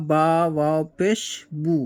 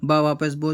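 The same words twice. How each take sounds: First: بو with a long u, as in قابو; u sound. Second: بو with a clear o, as in بورا; o sound. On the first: Teacher spelling بو with the u sound for pupils. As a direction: say بو rounding to u. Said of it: "یہاں پہ او کی آواز نکلے گی". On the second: Teacher showing pupils بو with the o sound. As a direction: say بو with an open o. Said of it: "ہم نے وہاں پر او کی آواز نکالی تھی". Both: Shown as a demonstration.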